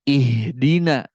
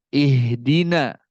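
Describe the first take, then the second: No difference in how they are said.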